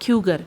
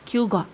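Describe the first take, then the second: First: American accent, with a final r sound. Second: British accent, with no final r sound.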